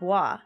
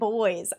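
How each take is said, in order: First: It is said like the French word 'bwa'. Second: It is said like the English word 'boys'. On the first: "I always would call him bois" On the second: "people were pronouncing it boys"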